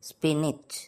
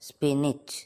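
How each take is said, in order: Both takes have the same delivery.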